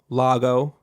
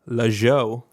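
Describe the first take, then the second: First: The middle consonant is a hard G sound. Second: The middle consonant is a J sound.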